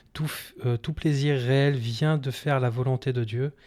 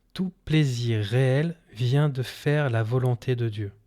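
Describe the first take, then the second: The two takes are said the same way.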